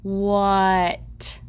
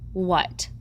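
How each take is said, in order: First: Each sound is said slowly and separately. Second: The word is said quickly as one unit.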